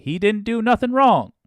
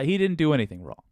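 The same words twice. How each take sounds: First: Put-on lampooning voters in an overdone Southern accent; mock Southern accent. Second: Said in the usual way. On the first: Host mocking Texas voters, loud high Southern accent. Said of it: "I don't know why I used that accent". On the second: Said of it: "that wasn't even Texas".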